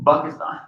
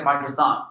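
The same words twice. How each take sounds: First: Pakistan said as Bakistan. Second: Said in the usual way. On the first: Shown as a demonstration. Teacher showing how Arabs say Pakistan, B for P. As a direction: say Pakistan with a B at the start. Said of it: "you say". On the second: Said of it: "You don't say".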